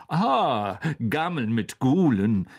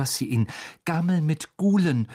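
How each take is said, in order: First: Broad-smiling, self-satisfied recognition, a little louder; pleased teacher. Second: Slightly higher, eager student's voice on the title; nervous student. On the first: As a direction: savour your own book title after a delighted "ah". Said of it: "mit einem breiten Lächeln". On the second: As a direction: cite the book earnestly to flatter the teacher. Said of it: "stammelte Hermine". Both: A narrator's reading.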